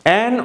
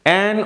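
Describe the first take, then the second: The two takes are said the same way.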